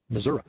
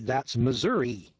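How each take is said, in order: First: The word ends with an 'uh' sound. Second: The word ends with an 'ee' sound. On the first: This is how local people say it. "we'd spell it M-I-S-S-O-U-R-A" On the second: This is how people from elsewhere say it. "when we see M-I-S-S-O-U-R-I, that's Missouri"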